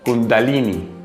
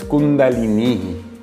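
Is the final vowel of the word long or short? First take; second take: short; long. First: The final i is short and clipped. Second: The final i is long and stretched. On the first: The speaker calls it wrong. "no es Kundalini" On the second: The speaker calls it right. "Se extiende un poquito la I y por eso tiene ese acento ahí arriba"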